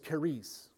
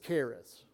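First: It is said with a Greek pronunciation. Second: It is said with a Texan American accent. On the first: "The Greek pronunciation is charis" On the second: "now if you're from Texas, it's charis"

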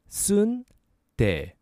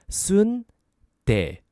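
No difference in how they are said.

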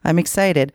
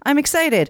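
First: It sounds sad. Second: It sounds happy and excited.

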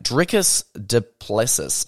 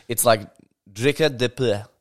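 First: The name is read with a plain English pronunciation. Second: The name is said with a French-sounding pronunciation. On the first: The speaker calls it wrong. "That's not how you say it" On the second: The speaker calls it right. "It's like Drikus du Plessis"

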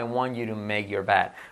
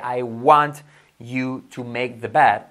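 First: The words are linked together smoothly. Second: Each word is said separately, robotically.

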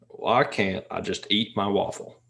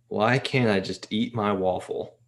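First: It is said in an imitated voice. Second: It is read in the speaker's normal voice.

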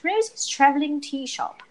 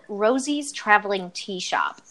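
First: It is said in a put-on British accent. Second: It is said in the speaker's ordinary accent.

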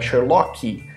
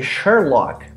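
First: The word ends with an added vowel sound. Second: The word ends cleanly on a consonant sound. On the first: The speaker calls it wrong. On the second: The speaker calls it right.

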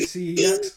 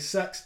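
First: It is spelled out as three separate letters. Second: It is one syllable starting with an s. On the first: "I don't say CEX" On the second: "I don't say sex"

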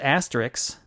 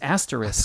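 First: The word ends with a 'ks' sound. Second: The word ends with an 'sk' sound. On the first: The speaker calls it wrong. "mispronouncing words like asterisk" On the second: The speaker calls it right. "No, it's asterisk"

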